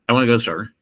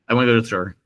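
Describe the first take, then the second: Both takes have the same delivery.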